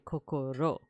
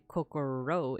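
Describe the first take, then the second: First: The r sounds like a Japanese r. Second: The r sounds like an American English r. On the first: The speaker calls it right. "it would be kokoro" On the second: The speaker calls it wrong. "it wouldn't be kokoro"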